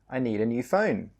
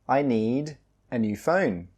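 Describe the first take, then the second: First: The sentence is said at a faster pace. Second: The sentence is said at a slower pace.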